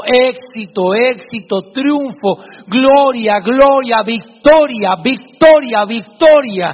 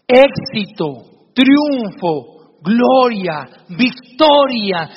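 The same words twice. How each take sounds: First: Louder, ringing echo that repeats each word; triumphant echo. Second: Very slow and louder, each word proclaimed; father teaching his son the good words; slow, uplifting words. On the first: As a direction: boom the words back like a cave echo. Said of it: "escuchaba en el fondo". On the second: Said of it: "le dice el papá". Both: Acted.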